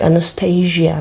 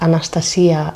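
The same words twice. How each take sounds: First: The name is pronounced the English way. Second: The name is pronounced the Greek way. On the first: The speaker calls it right. "I can pronounce the names very nice, like in a nice way" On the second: The speaker calls it wrong. "not Anastasia, as it was. It would be in Greek language"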